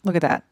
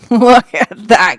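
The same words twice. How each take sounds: First: Said in the usual way. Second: "Look at that," burst out much louder through a laugh. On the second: Real, not acted. Amused by what's on screen, laughing loudly at viewers. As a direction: blurt it out laughing.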